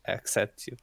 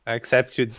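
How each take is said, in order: First: Softer, reluctant accept you; half-hearted accept you, trailing down; grudging, quiet. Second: I accept you said out firmly, YOU landing; mock-grand I accept you; emphatic. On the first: Acted. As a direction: accept you mumbled as a hesitant concession. Grudging acceptance after hesitation. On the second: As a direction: commit fully to I accept you.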